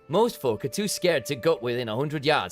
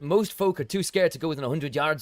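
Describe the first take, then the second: First: It is spoken in a Yorkshire accent. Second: It is spoken in a Scottish accent. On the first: The speaker calls it right. "And see, that's one there. Well, that's the one" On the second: The speaker calls it wrong. "See, I'm going towards a Scottish accent"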